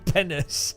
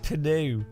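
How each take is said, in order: First: The word ends with an audible S sound. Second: The word ends without any S sound. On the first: The speaker calls it wrong. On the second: The speaker calls it right.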